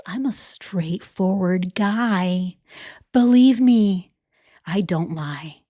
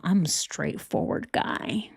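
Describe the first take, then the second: First: Hushed, slow mock whisper of a smooth liar. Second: Said in the usual way. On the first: Mocking the cheater whispering to his side piece, hushed. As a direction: breathe it like a sleazy secret promise.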